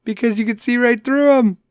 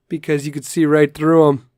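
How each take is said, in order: First: Amused punchline repeat. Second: Said in the usual way. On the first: Shown as a demonstration. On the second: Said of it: "dad joke of the day".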